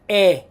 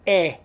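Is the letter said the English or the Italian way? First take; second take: Italian; Italian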